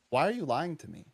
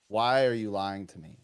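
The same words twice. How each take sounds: First: Retold upset question. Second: Lower, firmer retold confrontation; growing upset. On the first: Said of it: "I got a bit upset". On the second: Teacher confronting a lying student, increasingly upset. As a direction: press the question lower, more upset. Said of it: "getting more and more upset".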